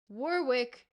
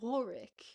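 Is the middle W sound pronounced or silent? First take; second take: pronounced; silent. First: The middle W sound is clearly pronounced. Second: The middle W sound is left out. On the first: The speaker calls it right. "it's Warwick because we we don't forget that there's an extra W mid-word" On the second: The speaker calls it wrong. "the U K forgets that there's a second W in Warwick, and it's not Warwick"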